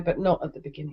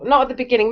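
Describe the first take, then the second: First: Softer, trailing repeat of "not at the beginning"; quieter repeat. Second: Said in the usual way. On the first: Real, not acted. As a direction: drop it to a soft afterthought. Repeats point, second softer.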